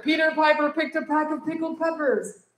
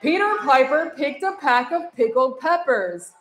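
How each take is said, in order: First: Faster. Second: Said in the usual way. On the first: Shown as a demonstration. Teacher showing the class a faster run. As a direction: rattle the tongue twister off quicker. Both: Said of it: "Say it faster".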